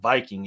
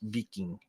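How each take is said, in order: First: The word has the usual English pronunciation. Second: The word has a non-English, native-style pronunciation. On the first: This is the Western form of the name. The speaker calls it wrong. "the actual name is not Viking" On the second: This is the original form of the name. The speaker calls it right. "That's how you actually say it"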